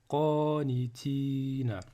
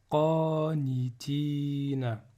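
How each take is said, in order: No difference in how they are said.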